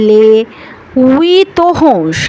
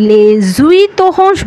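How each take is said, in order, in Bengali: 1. প্রথম দুটি শব্দের মধ্যে কোনো z ধ্বনি যুক্ত হয় না। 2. প্রথম দুটি শব্দের মধ্যে একটি z ধ্বনি যুক্ত হয়। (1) "অথবা আপনি বলতে পারেন" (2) "বলতে পারবেন না"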